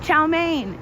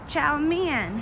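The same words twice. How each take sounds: First: It uses the common English-style pronunciation. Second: It uses the Mandarin-style pronunciation. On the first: The speaker calls it wrong. "we all say chow mein wrong" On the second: The speaker calls it right. "It's pronounced chow mein"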